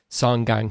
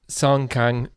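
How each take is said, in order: First: The second word starts with a G sound. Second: The second word starts with a K sound. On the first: The speaker calls it right. "is supposed to be G A N G" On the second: The speaker calls it wrong. "the K A N G"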